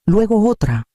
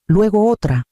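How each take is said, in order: Both takes have the same delivery.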